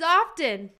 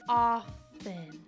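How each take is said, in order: First: The word is said with a T sound. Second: The word is said without a T sound. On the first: The speaker calls it wrong. "The word is often" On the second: The speaker calls it right. "There's no T at the end"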